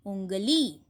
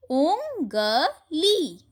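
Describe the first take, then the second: First: Said in the usual way. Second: उंगली stretched very slowly, pitch up; slow drawn reading. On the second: Shown as a demonstration. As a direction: draw out उंगली for the class. (उंगली को बहुत धीरे खींचकर पढ़िए) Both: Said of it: "चंद्र बिंदु से बने कुछ शब्दों".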